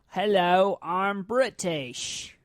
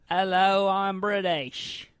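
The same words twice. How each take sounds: First: The British accent is heavily exaggerated. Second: The British accent is mild and understated.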